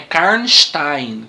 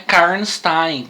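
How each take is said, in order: First: The s is said as sh. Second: The s is said as a plain s. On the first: The speaker calls it right. "faz um X o S aí" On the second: The speaker calls it wrong. "a pronúncia não é Karnstein, como a gente pensava"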